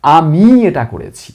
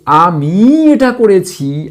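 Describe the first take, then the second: First: আমি weighted, in a lower voice; stress on আমি. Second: আমি weighted, whole line slow; stress on আমি, slow. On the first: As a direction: repeat leaning on আমি. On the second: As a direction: slowly lean on আমি. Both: Shown as a demonstration. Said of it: "আমিটাকে নির্দিষ্ট করে জোর দিয়ে বলছি".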